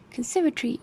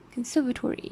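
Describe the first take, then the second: First: "conservatory" with the O dropped, ending in -tri; British pronunciation. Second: "conservatory" with the O kept, ending in -tory; American pronunciation. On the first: Lecturer contrasting accents, British pronunciation with schwa dropped. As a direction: shorten the end of "conservatory" to -tri. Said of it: "pronounced conservatory in English". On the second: Lecturer contrasting accents, American pronunciation keeping the O. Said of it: "G A keeps the o". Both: Shown as a demonstration.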